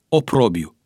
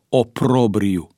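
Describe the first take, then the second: First: There is no r sound after the b. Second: An r sound follows the b. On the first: The speaker calls it wrong. "a comis greșeala să suprime consoana R care se repetă" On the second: The speaker calls it right. "corect se pronunță oprobriu"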